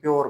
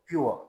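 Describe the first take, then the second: First: The vowel after p is a plain 'yo'. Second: The vowel after p is a 'yoo-uh' glide. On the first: The speaker calls it wrong. "हम इस लफ्ज को भी प्योर बोलते हैं" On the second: The speaker calls it right. "But actually this word is pronounced as प्योर"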